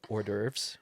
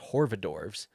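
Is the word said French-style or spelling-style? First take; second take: French-style; spelling-style. First: It is said briefly, like or-derves. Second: Every letter is sounded, like hor-va-dorves. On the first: This is the accepted pronunciation. The speaker calls it right. "Apparently, you pronounce it" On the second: This is how the speaker mistakenly thought it was said. The speaker calls it wrong. "what I thought was"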